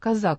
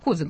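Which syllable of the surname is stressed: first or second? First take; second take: second; first. First: The stress is on the second syllable. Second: The stress is on the first syllable. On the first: The speaker calls it right. "делает ударение на втором слоге фамилии Козак" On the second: The speaker calls it wrong. "я по инерции Козак буду говорить"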